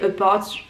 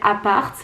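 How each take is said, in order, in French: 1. Le mot est prononcé avec un accent anglais. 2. Le mot est prononcé avec un accent français.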